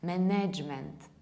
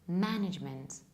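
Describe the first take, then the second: First: The stress is not on the first syllable. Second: The stress is on the first syllable. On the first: The speaker calls it wrong. "they stress it wrongly and they pronounce a wrong sound" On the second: The speaker calls it right. "the correct pronunciation is management. The stress falls on the first syllable"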